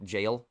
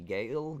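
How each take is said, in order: First: The word begins with a J sound. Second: The word begins with a hard G sound. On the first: The speaker calls it right. "Jail, it's pronounced" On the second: The speaker calls it wrong. "I will continue to pronounce it Gale"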